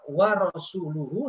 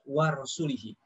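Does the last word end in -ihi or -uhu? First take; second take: -uhu; -ihi. First: The word ends with the vowels u-hu. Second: The word ends with the vowels i-hi. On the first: The Messenger is also free of the idolaters. The speaker calls it right. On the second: God is free of the idolaters and of the Messenger. The speaker calls it wrong. "tapi dibaca wa rasulihi"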